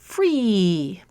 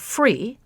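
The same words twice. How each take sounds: First: The vowel is held extra long. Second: The vowel has ordinary length. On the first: "make the vowel extra long" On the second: "with the ordinary high front tense vowel E"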